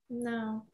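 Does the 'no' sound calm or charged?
calm. The word is said calmly and steadily. The body is guiding you away from something. The speaker calls it right. "it's very kind of like steady. It's like a good father in there"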